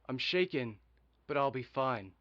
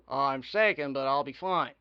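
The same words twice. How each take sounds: First: It is said in his ordinary natural voice. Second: It is said in a put-on character voice.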